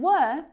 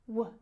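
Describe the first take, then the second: First: The vowel is full and clear. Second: The vowel is reduced almost to nothing.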